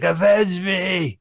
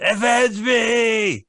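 First: Overacted death scene. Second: Slow, high, shouted dying plea; overacted death scene. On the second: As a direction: bellow it like a dying hero. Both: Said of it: "He's like".

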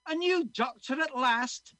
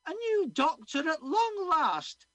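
First: Put-on high, loud joyful Scottish old man; Scottish old man delighted at the news; Scottish accent. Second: Much higher, loud, slow Scottish cleaning lady; Scottish woman crying out. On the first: Old man welcomes the new doctor, joyful Scottish accent. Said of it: "I'm gonna be doing a Scottish accent". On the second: Acted. Missus Muldoon greets the new doctor, high Scottish cry. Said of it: "she cried out".

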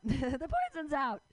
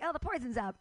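First: Laughing. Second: Said in the usual way. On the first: Retold or imitated. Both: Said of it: "and I'm like".

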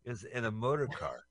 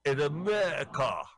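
First: Said in the usual way. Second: "motor car" squashed until it sounds like "America"; loud mimicry, "motor car" run together without clear r; mimicked pronunciation. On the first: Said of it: "In America". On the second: Mimics the accent in the film.

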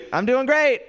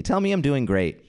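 First: High-pitched little cheer; mock reassurance. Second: Said in the usual way. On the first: Crowd tells comic he's doing great, high mock cheer. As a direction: pipe it up high, jokingly upbeat.

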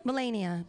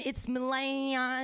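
First: "Melania" said as muh-LAY-nee-uh, falling; another pronunciation try. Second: "Melania" said slowly as muh-LAH-nah; unsure pronunciation. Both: Shown as a demonstration. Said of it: "does anyone know her name?".

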